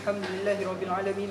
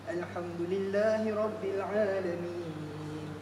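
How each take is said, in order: First: It is recited quickly without pauses. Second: It is recited slowly with clear pauses. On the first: The speaker calls it wrong. "Tu bacaan yang tak ada tartil kan, bacaan yang laju" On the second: The speaker calls it right. "saya akan baca dengan cara perlahan eh"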